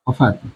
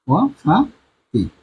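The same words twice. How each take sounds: First: Said in the usual way. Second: ওয়াফাতি drawn out for students; slow sounding out. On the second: Shown as a demonstration. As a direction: stretch ওয়াফাতি slowly, each syllable clear. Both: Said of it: "teacher sounding out word".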